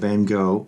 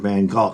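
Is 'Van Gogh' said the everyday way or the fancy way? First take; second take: everyday; fancy. First: The name is said the everyday way. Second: The name is said the fancy museum-goer way.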